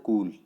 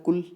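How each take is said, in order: First: "कूल" with a long, stressed ū; long stressed vowel. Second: "कुल" with a short, unstressed u; short unstressed vowel. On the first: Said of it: "लेकिन कूल जब हम बोल रहे हैं". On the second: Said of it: "जो कुल बोला इसमें ... स्ट्रेस नहीं आ रहा". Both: Shown as a demonstration.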